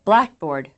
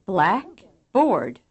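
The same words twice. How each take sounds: First: BLACKboard as one quick word, BLACK strong, board weak; first-syllable stress. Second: Blackboard split in two slow parts, BOARD nearly as strong as BLACK; second-syllable accent. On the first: Teacher demonstrating English compounds, first-syllable accent on Blackboard. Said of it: "First syllable accent". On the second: Teacher contrasting English items, second-syllable accent on Blackboard. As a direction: give board its own full beat in Blackboard. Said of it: "Second syllable accent". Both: Shown as a demonstration.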